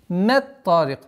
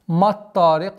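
First: The 'm' sound stays soft before the 't'. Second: The 'm' sound turns hard from the 't'. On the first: The speaker calls it right. "И таким маттарик" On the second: The speaker calls it wrong. "нельзя произносить маттарик ма, та, чтобы э, твердость та не влияла на э, мягкий звук мим"

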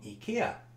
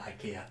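First: The name is said the original way. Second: The name is said the common local way. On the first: "that is probably the correct pronunciation" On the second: "most of us call it IKEA"

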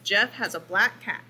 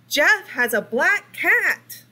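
First: The sentence is read plainly, without extra expression. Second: The sentence is read with strong, excited expression. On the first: The sentence ends with a period. "When I just have a period, you just read the sentence" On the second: The sentence ends with an exclamation point. "I'm showing strong expression"

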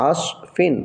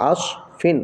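The two takes are said the same way.

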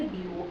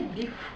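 First: The final sound is vowel-like, like a u. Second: The final sound is voiceless, like an f. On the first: "жодного укання" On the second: "жодного фикання"

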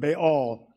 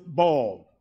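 First: The name does not sound like 'ball'. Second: The name sounds like the word 'ball'.

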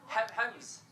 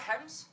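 First: The word is said in a Scottish accent. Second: The word is said in the speaker's usual accent.

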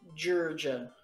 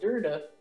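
First: The D sounds are said as J sounds. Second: The D sounds are said as plain D sounds. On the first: "if the D's are pronounced as J's" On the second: "We'd be like"

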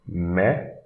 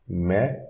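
Both takes have the same delivery.

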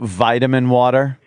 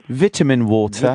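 First: It is said in an American accent. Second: It is said in the speaker's usual non-American accent.

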